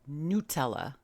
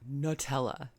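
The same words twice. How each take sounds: First: The word is said the Italian way. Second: The word is said in a non-Italian way. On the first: The speaker calls it right. "that's how Italians in Italy pronounce it" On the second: The speaker calls it wrong. "It is not Nutella"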